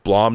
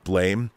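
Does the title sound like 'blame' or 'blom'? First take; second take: blom; blame. First: The vowel is an open 'ah' sound. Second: The vowel is an 'ay' sound. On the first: The speaker calls it right. "I was told it's called Blom" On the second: The speaker calls it wrong. "not Blame"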